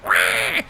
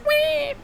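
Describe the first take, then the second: First: It is a deep, guttural cry. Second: It is a light, non-guttural cry.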